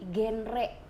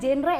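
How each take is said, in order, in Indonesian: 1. Dibaca Gen-Re, dengan R penuh. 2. Diucapkan seperti kata bahasa Inggris genre. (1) "tapi bacanya genre. R-nya gede" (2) "bukan genre ya teman-teman"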